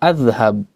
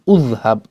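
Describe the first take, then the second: First: The word begins with an a vowel. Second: The word begins with a u vowel. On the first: "bukan adhhab" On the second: "bukan udhhab"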